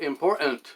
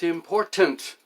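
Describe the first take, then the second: First: The middle T is dropped. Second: The middle T is clearly pronounced. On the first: The speaker calls it wrong. "not important" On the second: The speaker calls it right. "It's important"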